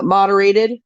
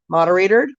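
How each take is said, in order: First: Said in the usual way. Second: "moderated" ending in an extra r sound, as "moderatored"; unsure coinage, "moderated" said like moderator plus d; fumbling word variant. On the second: Real, not acted. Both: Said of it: "whatever you guys call it".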